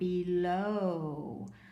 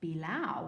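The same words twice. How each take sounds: First: The last vowel rhymes with snow. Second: The last vowel rhymes with cow. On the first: The speaker calls it right. "So that makes an O sound, like in snow" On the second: The speaker calls it wrong. "well that's not a word"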